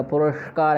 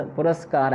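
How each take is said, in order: First: पुरस्कार said with sh in place of s; wrong retroflex sh. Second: पुरस्कार with a clear dental s before का; correct dental s. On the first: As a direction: say पुरस्कार as purashkar. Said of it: "मूर्धन्य शकार नहीं होगा". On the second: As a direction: say पुरस्कार as puraskar, no sh. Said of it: "ऐसा बनेगा". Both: Shown as a demonstration.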